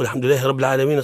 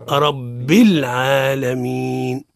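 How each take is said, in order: First: Quick "رب العالمين" with "رب" ending in -a; hurried "الحمد لله رب العالمين" with fatha on the b; wrong recitation. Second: Slow "رب العالمين" with kasra, "rabbil", and long vowels; stretched-out "رب العالمين" with a held ending; correct recitation. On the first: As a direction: rattle off "رب" as "rabba" in the verse. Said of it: "خطأ". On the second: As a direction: model "رب العالمين" deliberately, joining b into l. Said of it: "الصواب هو". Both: Shown as a demonstration.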